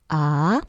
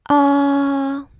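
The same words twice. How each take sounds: First: The pitch rises toward the end. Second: The pitch stays high and level. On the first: "The second tone goes up a little bit" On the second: "Tone one is high, flat, like a dentist saying ah"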